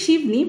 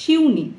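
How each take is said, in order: First: The name is said with a 'b' sound: Shibni. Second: The name is said with a 'u' vowel: Shiuni. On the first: This is the Bengali way of saying the name. "বাংলাতে বলতে গেলে শিবনি" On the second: This is the Hindi way of saying the name. "হিন্দিতে যদি আমি উচ্চারণ করতে যাই শিউনি"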